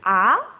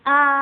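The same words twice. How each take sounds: First: The pitch rises from mid to high. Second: The pitch stays high and level. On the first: "nada kedua itu naik. Berarti bacanya kayak orang kaget" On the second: "nada pertama itu datar tapi tinggi"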